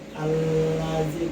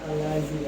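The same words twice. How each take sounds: First: The l sound is pressed and held long. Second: The l sound is light and short. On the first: The speaker calls it right. "agak ditekan lah dua harokat" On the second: The speaker calls it wrong.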